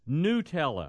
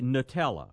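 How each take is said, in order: First: The first syllable does not sound like nut. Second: The first syllable sounds like the word nut. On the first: The speaker calls it right. "the right way to say it is Nutella" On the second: The speaker calls it wrong. "So the beginning sounds like, you know, nut"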